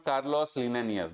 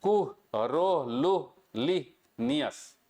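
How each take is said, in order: First: "Carlos Linnaeus" said as the common misreading; wrong pronunciation. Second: "कुह, रो, लुह, लि, नियस" in separate, slow syllables. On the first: Teacher giving students the wrong version, plainly run together. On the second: Teacher correcting the students with a syllable-by-syllable demo. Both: Shown as a demonstration. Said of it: "this is not Carlos Linnaeus".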